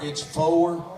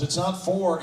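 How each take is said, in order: First: "four" drawn out in two syllables like "foe-er"; Texan four. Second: Said in the usual way. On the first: Shown as a demonstration. Texan accent, the correct version for the crowd. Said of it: "Next one's two syllables". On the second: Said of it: "It's not four, it's four".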